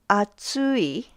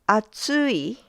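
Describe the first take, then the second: First: The pitch rises, then drops at the end. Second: The pitch rises, then drops at the end.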